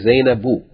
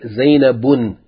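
First: The name ends in a vowel, no n. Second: The name ends with an n sound. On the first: The speaker calls it right. "you say Zainabu" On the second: The speaker calls it wrong. "You don't say Zainabun"

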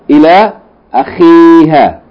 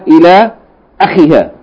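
First: The vowel after the kh is long. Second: The vowel after the kh is short. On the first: The speaker calls it right. "but rather" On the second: The speaker calls it wrong.

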